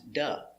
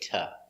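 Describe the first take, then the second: First: The word has a d and a weak vowel. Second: The word has a t and a weak vowel. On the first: "And sometimes duh" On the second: "we say ta"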